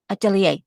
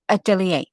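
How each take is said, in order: The two takes are said the same way.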